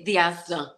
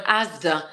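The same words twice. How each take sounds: First: "The Asda" with THE put in front, Scouse-style; added THE. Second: Said in the usual way. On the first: Retold or imitated. Showing how Scousers name the supermarket, "The Asda" with the added article. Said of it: "they'd say". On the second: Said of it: "like, instead of Asda".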